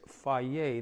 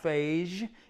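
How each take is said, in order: First: The name is said with a Greek pronunciation. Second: The name is said with an English-style pronunciation. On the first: The speaker calls it right. "That's how we pronounce it in the Greek" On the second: The speaker calls it wrong. "It's not Phage"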